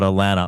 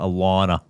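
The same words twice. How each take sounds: First: The middle syllable sounds like 'lan'. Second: The middle syllable sounds like 'lawn'. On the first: The speaker calls it wrong. "Not, not Alana" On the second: The speaker calls it right. "It's A L A W N A"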